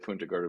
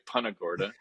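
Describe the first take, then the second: First: The name is said with Spanish-style sounds. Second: The name is said with English-style sounds. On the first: This follows the original Spanish. "we think that's the right Spanish pronunciation" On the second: This is how some locals say it. "Some of the locals say"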